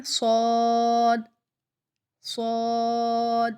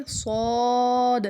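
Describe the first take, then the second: First: صاد ending on a still د, no bounce; saad without echo. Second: صاد with a bouncing qalqala on د, louder; saad with echo. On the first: Teacher showing صاد without qalqala. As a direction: stop the د of صاد dead. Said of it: "کلکلے کے بغیر دیکھیں". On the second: Teacher showing qalqala on صاد. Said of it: "کلکلے کے ساتھ ادا کریں گے". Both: Shown as a demonstration.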